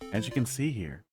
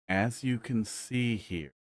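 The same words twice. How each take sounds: First: It is said at a normal speed. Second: It is said weirdly slowly.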